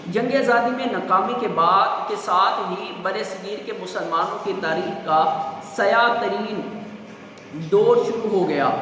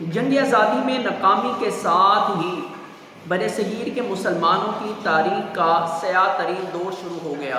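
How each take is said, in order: Both takes have the same delivery.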